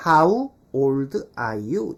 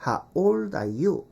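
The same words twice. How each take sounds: First: Put-on "How old are you" slow, full "ha-u", separate words; full diphthong. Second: Put-on "How old are you" with "How" cut to "ha"; dropped glide. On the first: Teacher showing the acceptable careful way, full diphthong. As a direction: sound out "How" with both vowels, word by word. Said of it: "이렇게 해도 되지만". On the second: Teacher showing the native habit, glide dropped. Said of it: "하우 할 때 우를 날려요". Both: Shown as a demonstration.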